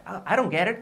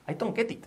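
First: I DON'T GET IT as "I-ron gerit", higher; "ah, I don't get it" flowing with flapped sounds; linked pronunciation. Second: I DON'T GET IT high with hard separate t sounds; "I don't get it" choppy, unlinked, high; stilted pronunciation. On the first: Teacher shows what sounds better, linked I DON'T GET IT. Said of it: "Fijaos que suena mucho mejor". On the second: Teacher shows what to avoid, choppy I DON'T GET IT. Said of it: "muy trabado y no suena inglés fluido". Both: Shown as a demonstration.

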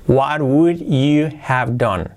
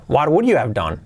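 First: "What would you have done?" slow and spaced out; slow word-by-word model. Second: Said in the usual way. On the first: Shown as a demonstration. Teacher repeats the question for learners, slowly, word by word. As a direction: stretch each word for learners.

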